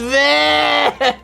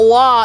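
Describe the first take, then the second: First: The cry has a fronted 'eh' vowel. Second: The cry has an open 'ah' vowel. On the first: The speaker calls it right. "Because the umlauts change the pronunciation" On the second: The speaker calls it wrong. "It's not wah"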